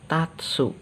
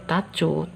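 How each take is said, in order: First: The last syllable sounds like 'tsu'. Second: The last syllable sounds like 'chu'. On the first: The speaker calls it right. "tapi menjadi tatsu" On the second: The speaker calls it wrong. "bukan menjadi tacu"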